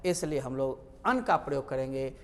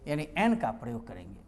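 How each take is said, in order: First: अन said as a short "un"; first pronunciation. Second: एन said as the letter name "en"; corrected pronunciation. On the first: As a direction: say अन with a short, clipped vowel. (अन को छोटा "अन" उच्चारण) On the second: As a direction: say एन clearly as "en". (एन को साफ़ "एन" बोलना) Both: Shown as a demonstration.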